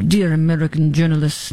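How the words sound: It is said in a put-on French accent.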